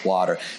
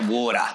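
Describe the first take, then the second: First: It is said in a non-Australian accent. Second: It is said in an Australian accent.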